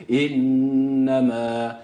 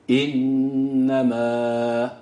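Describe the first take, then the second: The two takes are said the same way.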